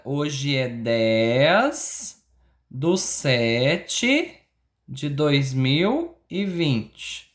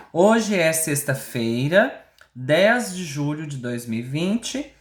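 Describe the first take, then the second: First: Very slow, drawn-out date dictation; teacher slowly dictating the date. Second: Slow, spaced-out dictation of the date; teacher dictating the heading. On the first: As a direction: stretch each part of the date for copying. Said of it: "Coloca a data pra mim". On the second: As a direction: say the date slowly so kids can write it. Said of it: "Façam o calendário". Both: Shown as a demonstration.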